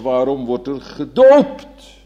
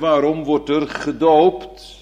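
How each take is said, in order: First: The word gedoopt is stressed. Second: The word gedoopt is not stressed. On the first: It asks why baptism rather than another rite. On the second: It asks for the reason at all.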